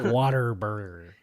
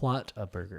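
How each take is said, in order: First: The first part sounds like 'water'. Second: The first part sounds like 'what a'. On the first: The speaker calls it wrong. "a lot of people say it wrong. It's not water burger" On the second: The speaker calls it right. "It's wh- what a burger"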